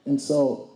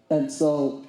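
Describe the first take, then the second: No difference in how they are said.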